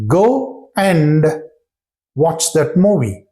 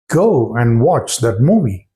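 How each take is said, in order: First: Each word said apart, "Go and" fully pronounced; careful go and. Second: "go" and "and" kept apart, no linking; separate go and. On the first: Teacher showing learners the careful way, each word separate. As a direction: spell out "Go and" as two clear words. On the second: Teacher demonstrating the unlinked learner version. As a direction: say "Go and" word by word. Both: Shown as a demonstration. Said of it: "That's how we speak".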